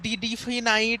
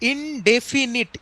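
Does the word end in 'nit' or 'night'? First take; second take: night; nit. First: The last syllable sounds like 'night'. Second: The last syllable sounds like 'nit'. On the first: The speaker calls it wrong. "এই সমস্ত কোনো স- মানে উচ্চারণ নয়" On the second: The speaker calls it right. "দেখো আমি বলি"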